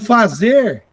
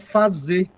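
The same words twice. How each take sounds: First: The final r sound is pronounced. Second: The final r sound is dropped.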